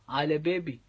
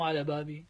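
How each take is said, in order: First: بابي said as bēbi, a leaning to e; Lebanese vowel. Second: بابي said as bābi, open a; plain a vowel. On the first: (بابي تُلفظ بيبي بالإمالة) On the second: (بابي تُلفظ بابي بفتحة عادية) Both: Shown as a demonstration. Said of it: "عرفتي إنه مو".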